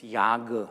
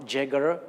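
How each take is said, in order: First: "Jágr" starting like "yah", the Czech way; correct Czech pronunciation. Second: "Jagger" read the English way, starting with a j sound; anglicized mispronunciation. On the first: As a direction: say "Jágr" with J as a Y, long ah. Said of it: "correct pronunciation is". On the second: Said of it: "Jágr was pronounced Jagger". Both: Shown as a demonstration.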